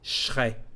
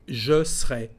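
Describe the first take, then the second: First: The subject and verb are fused into one chunk. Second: The middle vowel of serai is dropped. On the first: "if you want to mix now the verb with, with the subject" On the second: "you can drop the uh, letter E with the sound E"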